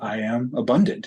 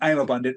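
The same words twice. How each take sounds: First: It is said slowly and mindfully. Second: It is said quickly and rushed.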